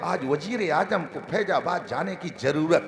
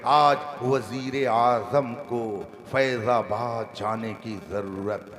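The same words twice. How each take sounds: First: Wazir and zarurat are said with a j sound. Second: Wazir and zarurat are said with a z sound. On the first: This is how a careless speaker says it. The speaker calls it wrong. "और वो क्या बोलते हैं" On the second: This is how a careful speaker says it. The speaker calls it right. "मगर मौलाना नूर साहब से पूछिए तो कहे"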